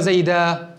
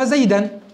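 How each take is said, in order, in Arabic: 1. تنتهي الكلمة بالألف الطويلة -aa. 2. تنتهي الكلمة بالتنوين -an. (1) "ولكن في الوقف ماذا ستقول؟ ... فنقلب التنوين إلى ألف" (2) "أصلها تقول عمرو قد أضاف زيدا، فزيدا تنوين فتح"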